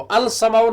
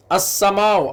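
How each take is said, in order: First: अल समाउ with a separate l before समाउ; wrong reading shown. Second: अस्समाउ with a doubled s and no l; assimilated sun letter. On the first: Teacher showing the wrong reading अल समाउ, l pronounced. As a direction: sound the l in अल समाउ as the error. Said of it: "नहीं पढ़ते हम". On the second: Teacher modelling the right reading अस्समाउ, doubled s. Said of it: "अल समाउ नहीं पढ़ते हम". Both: Shown as a demonstration.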